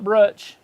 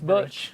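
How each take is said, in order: First: An r sound follows the first consonant. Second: No r sound follows the first consonant. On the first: The speaker calls it wrong. "Not Brutch" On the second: The speaker calls it right. "It's Butch"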